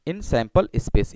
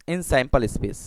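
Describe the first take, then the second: First: Very slow, each word stretched out; slow dictation. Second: Said in the usual way. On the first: Shown as a demonstration. Teacher repeating for students to write, very slow. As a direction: spell it out slowly for the class to copy. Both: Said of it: "धीरे धीरे मैं पढ़ रहा हूँ".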